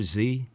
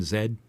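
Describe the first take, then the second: First: "Z" said as "zee"; American Z. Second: "Z" said as "zed"; British Z. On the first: Co-host challenging Canadian friend, "Z" as American "zee". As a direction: say the letter Z to rhyme with "see". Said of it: "Can you say the letter". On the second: Co-host challenging Canadian friend, "Z" as British "zed". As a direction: say the letter Z to rhyme with "bed". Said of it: "without saying Z". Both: Shown as a demonstration.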